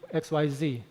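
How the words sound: The letter Z is said the American way. "in America they say Z"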